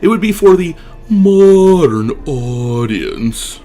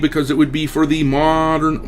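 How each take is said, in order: First: It is read in a put-on voice. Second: It is read in his regular voice.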